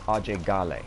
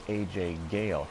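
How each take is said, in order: First: The first name is said as one word. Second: The first name is said as two letters. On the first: This is the local way to say his name. "the proper pronunciation of his name is Ajay Gale" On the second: This is the name he uses after growing up in America. "he goes by A J Gale himself"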